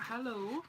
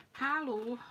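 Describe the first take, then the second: First: Said in the usual way. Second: "Hello" said halo with an open a; "Hello" with an ah vowel, halo; German-style hello. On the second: Shown as a demonstration. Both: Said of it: "Is that German?".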